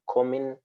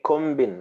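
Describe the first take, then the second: First: No B sound follows the M. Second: A B sound is pronounced after the M. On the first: The speaker calls it right. "you don't pronounce the B. You have to say" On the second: The speaker calls it wrong. "Ordinarily, you are supposed to say"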